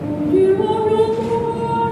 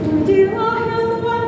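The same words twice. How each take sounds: First: It is said without a smile, darker tone. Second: It is said smiling, with a brighter tone. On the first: "kan beda" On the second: "bisa kita pakai senyum, angkat pipi"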